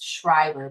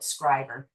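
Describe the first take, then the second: First: The name begins with a 'shr' sound. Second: The name begins with a 'skr' sound. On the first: This is an outsider's pronunciation. "I always pronounce this place Schreiber" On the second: This is how local people say it. "They call it Scriber"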